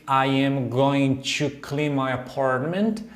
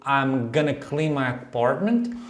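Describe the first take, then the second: First: It is said in full as going to. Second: It is reduced to gonna. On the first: "essa contração lá do going to" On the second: "ela usa ali o I'm gonna clean my apartment"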